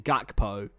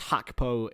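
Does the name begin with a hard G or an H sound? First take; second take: hard G; H sound. First: The name begins with a hard G sound. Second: The name begins with a breathy H sound. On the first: It is read as the spelling suggests in English. "phonetically, obviously, is Gakpo" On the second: It is the native Dutch pronunciation. "it's Hakpo in, in native tongue"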